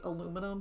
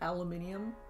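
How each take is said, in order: First: It is said with four syllables. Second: It is said with five syllables. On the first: This is how it is said in the West. "here in the West we say aluminum" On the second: This is how it is said in Britain. "but they say aluminium"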